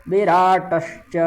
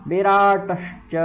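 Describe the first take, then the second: Both takes have the same delivery.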